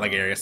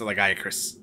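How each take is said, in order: First: The name ends with a 'rius' sound. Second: The name ends with a 'cris' sound. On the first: The speaker calls it wrong. "Not Lagarius" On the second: The speaker calls it right.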